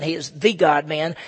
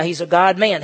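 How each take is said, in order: First: "the" said as an emphatic "thee"; "the" set apart and stressed before God-man. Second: Said in the usual way. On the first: Shown as a demonstration. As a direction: lean on "the" to mean the one and only.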